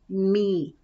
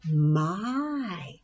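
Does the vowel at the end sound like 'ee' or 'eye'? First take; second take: ee; eye. First: The word ends in an 'ee' vowel sound. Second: The word ends in an 'eye' vowel sound. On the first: The speaker calls it wrong. "let's try the E part" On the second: The speaker calls it right. "Let's try using it as an I"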